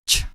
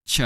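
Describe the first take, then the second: First: Said in the usual way. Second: "Ch" voiced as "chuh"; exaggerated ending sound. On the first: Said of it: "check out the other ending sounds". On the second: Shown as a demonstration. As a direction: release "Ch" into a short added vowel. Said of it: "pronounce these sounds much louder than usual".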